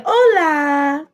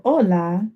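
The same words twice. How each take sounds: First: High, drawn-out "Hola"; lifted, long-held "Hola"; greeting not to use. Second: Said in the usual way. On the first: Shown as a demonstration. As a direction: stretch "Hola" out in a raised sing-song. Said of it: "you don't say, "Hola". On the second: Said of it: "instead of "Hola," this is how you'll hear it".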